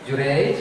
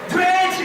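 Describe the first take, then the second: First: The name is called at a lower pitch. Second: The name is called at the highest pitch. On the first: The mother calls for the first time. "Kali pertama ibunya dipanggil nih" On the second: The mother calls a third time, most insistently. "dengan suara yang lebih tinggi dari yang kedua. Kira-kira begini"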